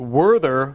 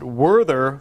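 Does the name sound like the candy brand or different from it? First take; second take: candy brand; candy brand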